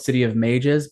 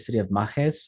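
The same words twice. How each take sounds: First: Mages is pronounced the usual English way. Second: Mages is pronounced in a non-English way. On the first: This is how readers would assume it sounds. The speaker calls it wrong. "it's called" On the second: This is the intended pronunciation used in the audiobook. The speaker calls it right. "but it's actually City of Mages. Like we're pronouncing it differently"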